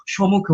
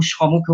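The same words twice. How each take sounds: First: সম্মুখে with a held double m; doubled m. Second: সমুখে with a single m, no doubled consonant; short variant. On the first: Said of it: "আমি সম্মুখে বলবো". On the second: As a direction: say সমুখে as sho-mu-khe, no held m. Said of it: "কেউ সমুখে উচ্চারণ করে". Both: Shown as a demonstration.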